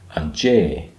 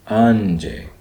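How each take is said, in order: First: The accented vowel is emphasized and long. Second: The accented vowel is unemphasized and short. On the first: The speaker calls it right. "that grave accent means that you emphasize that syllable" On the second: The speaker calls it wrong.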